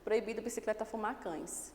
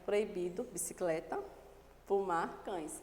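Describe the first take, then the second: First: The words run together without any pauses. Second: Each word is separated by a clear pause. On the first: The meaning becomes confused and ambiguous. The speaker calls it wrong. "vou ler sem a vírgula" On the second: Three separate things are forbidden. The speaker calls it right. "Observe que eu fui separando, observe a pausa na fala"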